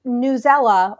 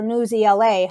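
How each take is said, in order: First: "Newsela" said as one blended word, news-ELL-uh; one-word pronunciation. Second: "News E L A" with the last three letters named; spelled-out pronunciation. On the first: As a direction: run "Newsela" together as a single name. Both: Shown as a demonstration. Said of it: "however people out there say it".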